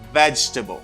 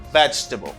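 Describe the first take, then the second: First: It is said with only three syllables. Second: It is said with only three syllables.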